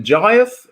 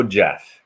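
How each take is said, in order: First: Giath as two syllables, JY-ath; alternative pronunciation. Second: Jath as one syllable, rhyming with math; commentator's pronunciation. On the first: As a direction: say Giath with a long eye sound, then "ath". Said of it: "Is it Giath or Jath?". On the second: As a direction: say Jath short, with no eye sound. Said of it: "the commentator was saying Jath". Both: Shown as a demonstration.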